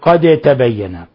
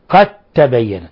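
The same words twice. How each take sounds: First: The d is pronounced separately before the t. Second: The d merges fully into the t. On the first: The speaker calls it wrong. "لا يجوز أن نقول" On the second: The speaker calls it right. "أضغمنا الدال في التاء"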